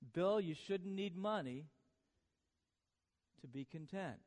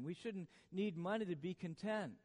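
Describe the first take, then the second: First: It is said slowly. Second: It is said at normal speed.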